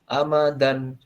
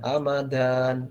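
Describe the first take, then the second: First: The final syllable is kept short. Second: The final syllable is drawn out long. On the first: The speaker calls it right. "tapi pendek. Amadan seperti itu" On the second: The speaker calls it wrong. "tidak ditarik atau tidak diayunkan"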